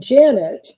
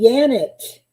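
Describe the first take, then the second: First: The name starts with a J sound. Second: The name starts with a Y sound. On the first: The name follows the English pronunciation. "but I am Janet" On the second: The name follows the German pronunciation. "if I was consistent with my use of the language, I I would be Janet"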